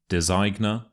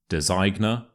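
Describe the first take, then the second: The two takes are said the same way.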